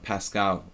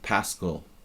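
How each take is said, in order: First: The name is said the French way. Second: The name is said a non-French way. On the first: It matches the famous French mathematician's name. "like the French mathematician pronunciation" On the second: It is how the family traditionally says it. "my family generally pronounced it Pascal"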